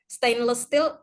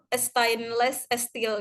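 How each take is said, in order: First: Said in the usual way. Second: Slow imitated Iranian English, "e-stainless e-steel"; Iranian accent. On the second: Student imitating the lecturer's thick Iranian accent, slowly. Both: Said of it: "logat Irannya tuh kental banget".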